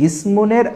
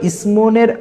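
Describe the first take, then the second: The two takes are said the same way.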